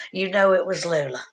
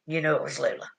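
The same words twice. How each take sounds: First: Said in the usual way. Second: Lower, softer echo of the line; soft repeat. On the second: Shown as a demonstration. Repeating it softly to Melissa, quieter. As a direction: say it again, gently, almost to yourself.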